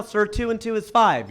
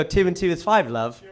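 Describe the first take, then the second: First: Said in the usual way. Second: British accent. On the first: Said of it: "If I say it to you right now". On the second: Shown as a demonstration. Comedian showing everything sounds right, British accent. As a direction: say it like a chummy Brit, British accent. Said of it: "everything sounds right in that accent".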